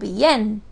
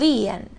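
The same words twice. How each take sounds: First: Two syllables, stress on the second one. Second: Two syllables, stress on the first one. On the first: "Si tuviéramos en la e, diríamos" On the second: "Si nosotros tuviéramos el tilde en la i, diríamos"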